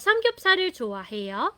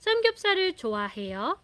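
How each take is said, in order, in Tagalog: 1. Tumataas ang tono sa dulo. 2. Tumataas ang tono sa dulo.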